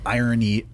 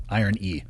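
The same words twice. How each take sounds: First: Irony, as in ironic; irony said as the word. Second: Iron E, iron then a clear ee; iron plus e. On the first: Correcting a listener on which word, irony as in ironic. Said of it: "I R O N Y". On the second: Explaining a taste word to the host, iron E. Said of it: "I'm talking I R O N". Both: Shown as a demonstration.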